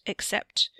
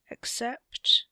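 First: Voiceless, hesitant fade; trailing off. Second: Higher, breath-laden question; probing prompt. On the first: Theo, unsure what to tell Wesley, trailing off. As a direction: let the word die away unfinished. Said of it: "he trailed off". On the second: Wesley presses Theo to finish his sentence, questioning. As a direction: prompt them to finish, voice lifting. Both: A narrator's reading.

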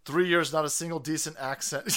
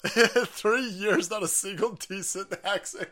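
First: Said in the usual way. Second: Higher, drawn through real laughter; amused, laughing disbelief; laughing reread. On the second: Real, not acted. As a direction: read it back while cracking up. Rereads the jab while laughing.

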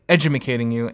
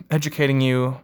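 First: "edumacating" with an extra "ma" syllable; comic mispronunciation. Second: Said in the usual way. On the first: Shown as a demonstration. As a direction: garble educating into "edumacating" for a joke. Joking garble of "educating.

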